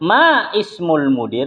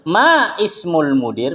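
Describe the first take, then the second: First: The glottal stop before ismul is pronounced. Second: The glottal stop before ismul is pronounced.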